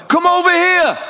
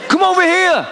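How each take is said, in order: First: High-pitched American holler; American accent. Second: Put-on American accent. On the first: Acted. Player summoning the visitors courtside, American accent. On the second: Player repeating his summons from the bench, American accent. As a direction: holler it over in a mock American accent. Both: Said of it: "That's my American accent".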